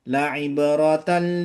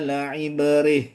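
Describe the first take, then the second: First: The word ends in 'tan' and runs on. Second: The word ends in an 'h' after a pause. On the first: The reciter continues to the next word. "Kalau lanjut" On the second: The reciter stops after this word.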